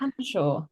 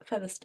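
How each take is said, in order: First: The name is said with two syllables. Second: The name is said with three syllables. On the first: The speaker calls it right. "Don't ask, it just is" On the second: The speaker calls it wrong. "Is that how you say it?"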